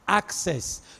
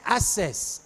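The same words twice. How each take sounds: First: The middle k sound is clearly pronounced. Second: The middle k sound is left out. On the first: The speaker calls it right. "You say access" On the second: The speaker calls it wrong. "you don't say access"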